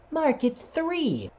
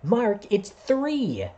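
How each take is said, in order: First: Much higher, slow, careful teacher voice; overly patient teacher spelling it out; teacher correcting. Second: Put-on higher, slow child's voice correcting; a kid in class correcting Mark slowly. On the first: Retold or imitated. Kindergarten teacher correcting Mark, much higher and slow. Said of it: "my teacher said the same thing". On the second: Classmate correcting Mark, higher and slow. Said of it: "And I remember one kid".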